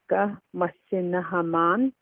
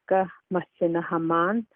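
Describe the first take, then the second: First: The phrase is said slowly and carefully. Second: The phrase is said quickly and fluently. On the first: "the slow pronunciation" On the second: "the fluent pronunciation"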